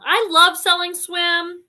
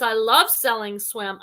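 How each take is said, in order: First: Higher, slower, with eager emphasis; enthusiastic agreement. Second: Said in the usual way. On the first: Real, not acted. Host echoes a viewer's comment, enthusiastic agreement. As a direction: savour it like a favourite line. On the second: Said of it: "Posh Paradise says".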